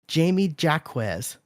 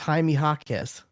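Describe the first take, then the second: First: The first name sounds like English Jamie. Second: The first name sounds like Spanish Jaime. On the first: The speaker calls it wrong. "he mispronounced one of the players' names" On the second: The speaker calls it right. "when it was"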